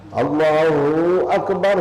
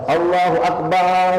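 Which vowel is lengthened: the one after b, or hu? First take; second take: hu; after b. First: The syllable hu is drawn out long. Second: The vowel after the b sound is drawn out. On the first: "hu panjangnya. Tidak benar" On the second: "menambahkan alif di belakang ba. Itu juga salah"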